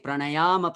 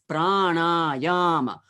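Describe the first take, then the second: First: The long syllables are not each given stress. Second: Three syllables are each given a strong stress. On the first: The speaker calls it wrong. "you cannot say pranayama parayana" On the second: The speaker calls it right. "It's pranayama, dum, dum, dum. Three times stress"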